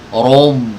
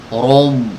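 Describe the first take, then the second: Both takes have the same delivery.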